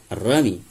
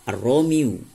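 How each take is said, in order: First: The word ends with an 'ee' sound. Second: The word ends with a 'yoo' sound. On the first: The speaker calls it right. "karena mereka selalu menyingkat kata" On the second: The speaker calls it wrong.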